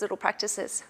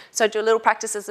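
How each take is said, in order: First: Repeated much softer, trailing away; softer echo. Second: Said in the usual way. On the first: Shown as a demonstration. Coach echoing her advice to viewers, softer and trailing off. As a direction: let the repeat fall away to a soft echo.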